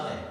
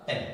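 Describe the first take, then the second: First: ए said as a clear open vowel sound; teacher sounds out ए for the class; vowel e demo. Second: ए repeated slowly as a clean vowel sound; repeated vowel e demo. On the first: Teacher demonstrating ए to students, plain and clear. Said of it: "हमने बोला ए". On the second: Teacher repeating ए so students hear it, clear and plain. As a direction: sound out ए once more, held open. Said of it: "हमने बोला". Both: Shown as a demonstration.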